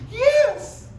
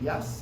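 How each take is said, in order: First: The word is said in a very excited way. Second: The word is said in a calm, even way.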